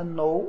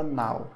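First: "know" with no K, rhyming with "go"; silent K, O sound. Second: "now" with an open "ow", rhyming with "cow"; AU sound. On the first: Teacher contrasting know and now, long-O pronunciation. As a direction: say "know" as "noh". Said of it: "tira o K e fala know". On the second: Teacher contrasting now and know, open AU pronunciation. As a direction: say "now" as "nau". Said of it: "aqui você fala now". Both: Shown as a demonstration.

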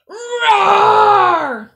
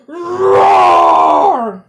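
First: High, full-voiced roar; loud roar. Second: Huge, very loud roar; most ferocious roar. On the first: Lion pupil roars for the teacher, loud high roar. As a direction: roar as loud as you can. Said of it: "roared as loud as I could". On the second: Lion pupil roars at the dog, ferocious full roar. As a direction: let out a ferocious lion's roar. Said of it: "the most ferocious roar". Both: A narrator's reading.

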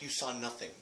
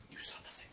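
First: Said in the usual way. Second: Unvoiced conspiratorial whisper. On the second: Shown as a demonstration. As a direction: breathe it like a secret.

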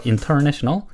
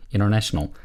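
First: "international" with a clear T after N; T fully pronounced. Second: "international" with the first T silent, "innernational"; dropped T. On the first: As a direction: keep the T audible in "international". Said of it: "N 다음에 나오는 T 발음은". ("international"의 T를 살린 발음) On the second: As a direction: drop the T after N in "international". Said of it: "T 발음은 종종 생략합니다". ("international"을 "이너내셔널"처럼) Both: Shown as a demonstration.

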